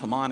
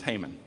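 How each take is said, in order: First: The name is said with a Hebrew pronunciation. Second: The name is said with an English pronunciation. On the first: "in Hebrew, it's pronounced Haman" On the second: "In English, it's Haman"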